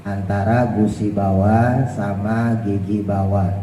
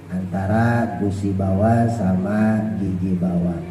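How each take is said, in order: The two takes are said the same way.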